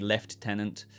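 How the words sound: It is said the British way, 'lef-tenant'.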